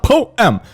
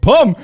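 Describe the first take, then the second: First: "Poem." said as two syllables, po-em. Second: "Poem." clipped to one syllable, pum. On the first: Host mocking the poster's two-syllable poem, po-em. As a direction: draw "Poem." out as po-em. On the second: Host showing poem as one syllable, pum. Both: Shown as a demonstration. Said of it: "say poem ... one syllable".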